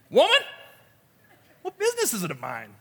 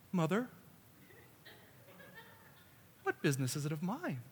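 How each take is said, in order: First: High, sharp cry on WOMAN; mock-indignant kid sassing his mother; kiddish backtalk. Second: Hushed, reverent delivery; softened, gentle reading. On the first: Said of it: "in this very kiddish way". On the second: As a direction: say it softly and carefully, nothing sharp. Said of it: "to say it like this". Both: Shown as a demonstration.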